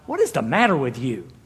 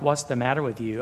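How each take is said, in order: First: It is asked in a forceful, exasperated way. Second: It is asked in a mild, casual way.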